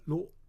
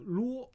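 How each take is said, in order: First: It is said light and unstressed, neutral tone. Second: It is said with a high level tone. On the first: It adds emphasis and emotion at a sentence end. "it's the fifth tone" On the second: It means chatty or overly complicated. "first tone called 啰"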